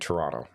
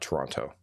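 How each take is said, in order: First: It is said with a Canadian pronunciation. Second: It is said with a non-Canadian pronunciation. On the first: "you know I'm Canadian because I'm saying Toronto" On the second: "not Toronto"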